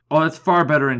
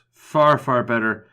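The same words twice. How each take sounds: First: Said in the usual way. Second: Slowed down, relishing each word; slow savouring. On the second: Pretend. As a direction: draw out "Far, far better" slowly, like tasting it. Repeats it slowly, relishing.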